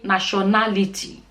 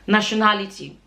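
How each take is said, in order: First: Every sound of the word is fully pronounced. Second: Some sounds of the word are reduced. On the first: The speaker calls it right. "try to make sure you say every single letter in the word" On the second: The speaker calls it wrong. "Don't say"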